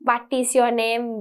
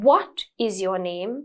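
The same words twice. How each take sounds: First: The first sound is a V made biting the lip. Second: The first sound is a W with rounded lips. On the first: The speaker calls it wrong. "I don't say, ... I don't bite my lip" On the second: The speaker calls it right. "but I nicely make it like what"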